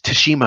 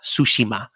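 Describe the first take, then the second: First: The first syllable sounds like 'ta'. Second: The first syllable sounds like 'sue'. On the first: The speaker calls it wrong. "a lot of people are like Tashima. I'm like, no, no" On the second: The speaker calls it right. "sushi and then ma"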